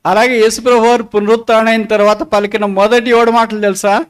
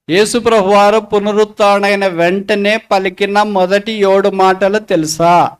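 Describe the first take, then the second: First: Said in the usual way. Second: Slow, measured repeat of the question; deliberate repeat. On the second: Real, not acted. Preacher re-asks the congregation about the seven words, slow and deliberate. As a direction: spell it out slowly for the congregation.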